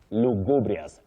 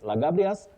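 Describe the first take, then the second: First: The first vowel sounds like 'oo'. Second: The first vowel sounds like 'ah'. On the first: The speaker calls it right. "Lugubrious, not lagabrious" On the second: The speaker calls it wrong. "don't use that in English"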